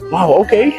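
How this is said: It sounds supportive and encouraging.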